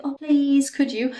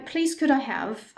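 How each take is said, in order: First: Mock pleading, pitched high and louder; begging. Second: Said in the usual way. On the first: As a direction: plead it in an exaggerated beg. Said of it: "that sounds like begging". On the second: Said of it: "this is just a regular phrase".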